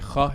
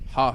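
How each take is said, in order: First: The h is a plain breathy English h. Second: The h is a strong throaty h sound. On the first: "so they say ha instead" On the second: "they can't say ha"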